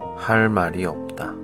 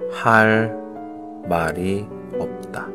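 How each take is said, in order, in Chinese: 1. 这个短语说得稍微快一点。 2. 这个短语说得慢。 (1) "조금빨리따라하세요" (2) "천천히따라하세요"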